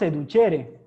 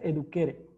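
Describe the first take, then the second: First: It uses the ecclesiastical Latin pronunciation. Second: It uses the classical Latin pronunciation. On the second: "como lo hacían los latinos clásicos"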